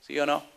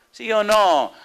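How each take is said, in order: First: Said in the usual way. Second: Louder, higher challenge. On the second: Acted. Preacher pressing the congregation for an answer, loud and high.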